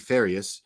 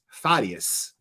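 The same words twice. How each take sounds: First: The R is a soft English-style R. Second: The R is a hard Spanish-style R. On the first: "we all pronounce it" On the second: "there's a hard R there uh, in Spanish"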